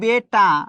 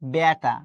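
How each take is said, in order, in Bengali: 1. প্রথম স্বরধ্বনিটি বদ্ধ e ধ্বনি। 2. প্রথম স্বরধ্বনিটি বিবৃত æ ধ্বনি। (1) "আমি লিখছি বেটা" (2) "আমি কিন্তু বলছি বেটা"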